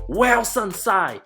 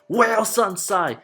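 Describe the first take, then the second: First: The name is said in a mocking, condescending tone. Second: The same.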